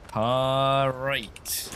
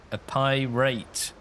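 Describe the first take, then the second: First: "pirate" drawn out with an open PAR, like par-rate; piratey "pirate". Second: "pirate" said slowly as pie-rate, PIE sounded clearly; pun on "pirate". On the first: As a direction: stretch "pirate" as a long pirate-style paar-rate. Punchline repeated in pirate drawl. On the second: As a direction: stretch "pirate" into two words, pie and rate. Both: Shown as a demonstration.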